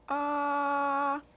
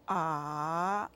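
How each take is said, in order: First: The pitch stays high and level. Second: The pitch dips down then rises. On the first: "Simply straight, no change of the tone" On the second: "Go down and up"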